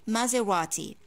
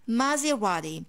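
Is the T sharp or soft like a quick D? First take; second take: sharp; soft. First: The T is sharp, like a normal T. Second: The T is soft, like a quick D. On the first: "you can pronounce the T like a normal T" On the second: "I divide it into three parts and I say Maserati"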